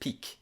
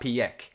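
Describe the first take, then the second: First: It sounds exactly like the word 'peak'. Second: It sounds different from the word 'peak'. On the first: The speaker calls it right. "so I'm guessing it's just peak" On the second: The speaker calls it wrong. "so not Piek"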